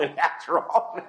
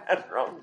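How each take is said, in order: First: Chuckling through a retold fault-finding; amused imitation of a nitpicking officer; laughing mock officer. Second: Said in the usual way. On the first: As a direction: laugh while listing the wrong things. Officer listing faults, preacher laughs.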